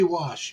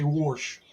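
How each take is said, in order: First: The word is said without an R sound. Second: The word is said with an R sound. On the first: This is how people outside Indiana say it. "you don't say wash" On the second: This is how people in Indiana say it. "you say wash"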